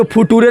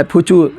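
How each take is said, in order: First: "फुटूरे" read letter by letter, as foo-too-re; wrong spelling-based reading. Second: "फ्यूचर" said as fyoo-char, with ch; correct reading. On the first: Teacher showing students how not to read the English word, misread "फुटूरे" as foo-too-re. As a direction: misread "फुटूरे" with hard t and sounded final e. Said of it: "इसको फुटूरे नहीं पढ़ना है". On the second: Teacher correcting students' reading of the word, correctly pronounced "फ्यूचर" as fyoo-char. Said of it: "क्या पढ़ना है?". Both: Shown as a demonstration.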